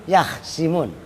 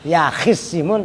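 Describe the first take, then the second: First: No vowel follows the kh sound. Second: A short vowel follows the kh sound. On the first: The speaker calls it right. "tapi yakhsimun ... dibaca sukun kha'nya" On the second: The speaker calls it wrong. "bukan yakhisimun"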